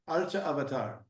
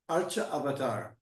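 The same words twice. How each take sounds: The two takes are said the same way.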